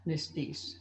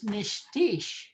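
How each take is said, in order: First: Nistis said with plain s sounds, nis-tis; common variant. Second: Nishtish said with sh sounds, nish-tish; Cree Michif word. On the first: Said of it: "a lot of people just say Nistis". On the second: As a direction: clearly model Nishtish with both sh sounds. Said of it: "Your older brother is Nishtish". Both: Shown as a demonstration.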